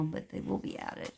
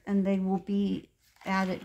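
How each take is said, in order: First: Softer, whispered repeat of the words; hushed whisper. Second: Said in the usual way. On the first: Shown as a demonstration. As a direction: drop to a whisper as if sharing a secret.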